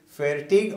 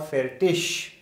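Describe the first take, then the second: First: The word ends with a hard g sound. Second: The word ends with a soft sh sound. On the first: "few people they call it fertig" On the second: "IG at the end can be pronounced as sh"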